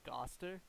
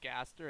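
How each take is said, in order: First: The name is said with an accent. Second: The name is said in a plain way. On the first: "his name is pronounced like with an accent" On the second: "instead of it's Gaster"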